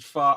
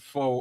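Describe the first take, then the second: First: The vowel sounds like 'ah'. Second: The vowel sounds like 'oh'. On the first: This is what the dish is called. "it's called fa. I don't pronounce it fa" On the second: This is how the speaker habitually says it. "I pronounce it fo all the time"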